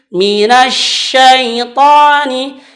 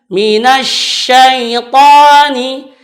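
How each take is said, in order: No difference in how they are said.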